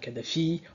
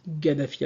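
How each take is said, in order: First: The name begins with a K sound. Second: The name begins with a G sound. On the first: This is the French way of saying it. "nous en français on va dire Kadhafi" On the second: This is the English way of saying it. "en anglais ils disent Gaddafi avec un G"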